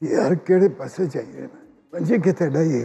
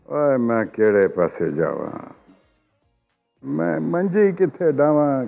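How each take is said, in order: First: It is said in a nervous tone. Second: It is said in a sad tone.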